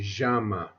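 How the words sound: The double L is said with a zh sound. It is how some places in South America say it. "they give this eye more of a zh, zh sound"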